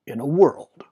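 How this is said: It attempts a deep, dramatic announcer voice. "I have to get the voice right. ... that wasn't good. That was like weak"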